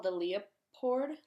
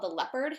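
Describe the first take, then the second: First: "Leopard" said as LEE-uh-pord; Leopard sounded out. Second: Said in the usual way. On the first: Shown as a demonstration. Book reviewer guessing at a title, "Leopard" said as LEE-uh-pord. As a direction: pronounce "Leopard" in three syllables, lee-uh-pord. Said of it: "with an accent, like, maybe a Norwegian accent". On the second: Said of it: "in, like, a, with an accent".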